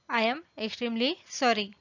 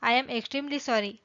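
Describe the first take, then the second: First: "I am", pause, "extremely", pause, "sorry"; "I am extremely sorry" spaced out for learners; separated words. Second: Said in the usual way. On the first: Shown as a demonstration. Teacher repeats word group by group.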